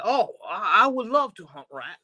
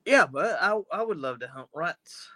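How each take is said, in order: First: Put-on higher-pitched British accent slipping into French; botched British, sounding French. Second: Shaky attempt at a British accent; bad British accent. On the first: Safecracker accepting owl powers, botched French-sounding British accent. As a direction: attempt British and land on French. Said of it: "that's French". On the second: Safecracker accepting owl powers, badly faked British accent. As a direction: have another go at British, badly. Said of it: "I can't do a British accent".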